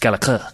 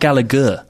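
First: The middle consonant is a ch sound. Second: The middle consonant is a hard g sound. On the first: The speaker calls it right. "There's a CH in it. It's Gallagher" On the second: The speaker calls it wrong. "It's not Gallagher"

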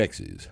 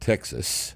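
First: The last syllable ends with a buzzed z sound. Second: The last syllable ends with a hissed s sound. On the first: It is how locals say it. The speaker calls it right. "Texas is pronounced T-E-X-I-Z" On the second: It is how outsiders from the North say it. The speaker calls it wrong. "Not Texas. No, that's... That's what Yankees say"

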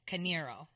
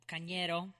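First: The name is said with an English-style pronunciation. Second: The name is said with a Spanish-style pronunciation. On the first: The speaker calls it wrong. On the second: The speaker calls it right.

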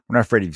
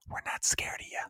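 First: It is said in a normal voice. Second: It is whispered.

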